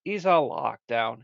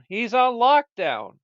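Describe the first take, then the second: First: Said in the usual way. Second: Slower, higher and louder, leaning on "He's on lockdown"; a stern announcer's "He's on lockdown"; emphatic repeat. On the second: Acted. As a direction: drag out "on lockdown" as a mock-stern verdict.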